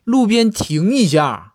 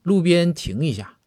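First: It is shouted loudly and impatiently. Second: It is said in a calm, normal voice.

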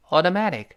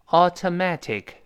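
First: Faster, with the t sounds voiced like d. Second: Slow, with crisp t sounds. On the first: "我们再快一点" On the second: "跟老师先慢慢读"

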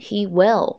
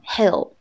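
First: It is said as two full words. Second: It is said as one contracted syllable. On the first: The speaker calls it wrong. "我们就不能把它读成he will" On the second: The speaker calls it right. "要读成he'll"

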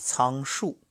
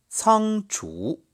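First: The second syllable is pronounced shù. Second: The second syllable is pronounced zhú. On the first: The speaker calls it wrong. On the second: The speaker calls it right.

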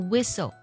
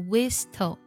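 First: The t sound is silent in the word. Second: The t sound is pronounced in the word. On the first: The speaker calls it right. "字母T 也不发音，它读作whistle" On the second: The speaker calls it wrong. "不读作whistle"

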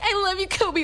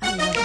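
First: It sounds like a casual, gushing fan. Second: It sounds sincere and romantic.

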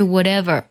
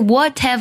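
First: The middle t is a soft, voiced flap. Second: The middle t is a crisp, unvoiced t. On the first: The speaker calls it right. "这个what 特呢有个浊化，而是whatever" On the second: The speaker calls it wrong. "不是whatever"

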